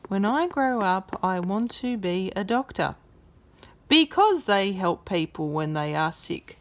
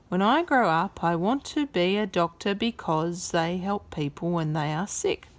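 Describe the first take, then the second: First: There is a full stop pause before because. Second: It flows on with no pause before because.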